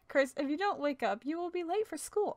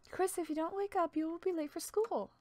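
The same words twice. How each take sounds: First: It is read in the speaker's normal voice. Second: It is said in a put-on Toriel voice.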